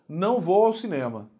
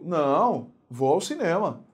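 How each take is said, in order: First: It is said without a pause after não. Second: There is a pause after não.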